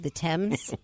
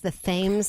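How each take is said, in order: First: The name is said the British way. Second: The name is said the Connecticut way. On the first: This is how the British say it. "as opposed to the Thames" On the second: This is how locals in Connecticut say it. "do we pronounce it in Connecticut as the Thames"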